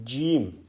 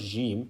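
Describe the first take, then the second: First: It starts with a hard, clear j sound. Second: It starts with a soft, buzzing zh sound. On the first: The speaker calls it right. "there is an actual j sound" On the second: The speaker calls it wrong. "It's not jim"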